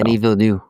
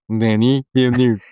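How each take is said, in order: First: The name is said with little nasal sound. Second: The name is said with a heavy nasal sound. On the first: "you just didn't give enough of the uh, the nasal the nasal sound" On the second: "I just clogged my nose"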